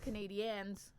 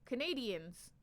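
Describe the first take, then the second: First: It is said in an unusual way. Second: It is said the usual English way. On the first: This is the team's own form. The speaker calls it right. "it's pronounced Canadians. I know it's weird" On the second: This is the expected everyday form. The speaker calls it wrong. "I thought it was wrong too. I was like, it's Canadians"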